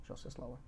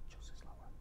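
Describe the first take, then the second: First: Barely audible, low-pitched voice; talking lower. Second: Voiceless, barely-there whisper. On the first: Host testing a quieter voice on co-host, barely audible. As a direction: shrink it to a tiny low murmur. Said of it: "Should I talk lower?". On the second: Host exaggerating a lower voice for co-host, whispering. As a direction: take all the voice out and whisper. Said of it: "Should I talk like this?". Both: Shown as a demonstration.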